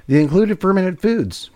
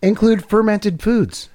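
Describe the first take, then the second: First: "the included fermented foods" read slowly, with "included" carefully stressed; careful, halting reading of "the included fermented foods". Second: "Include fermented foods" read slowly, stressing "Include"; slow, mocking reading of "Include fermented foods"; slow reading aloud. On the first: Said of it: "Really testing my abilities to speak". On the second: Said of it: "trying to use the word". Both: Shown as a demonstration.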